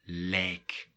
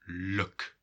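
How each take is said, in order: First: The vowel is a full ij diphthong. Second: The vowel is a short, reduced schwa. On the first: The speaker calls it wrong. "and not lijk" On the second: The speaker calls it right. "we're going to say look"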